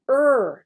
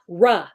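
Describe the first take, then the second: First: The r sound is said without an added vowel. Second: The r sound is followed by an added vowel. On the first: The speaker calls it right. "So it is er" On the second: The speaker calls it wrong. "not ruh"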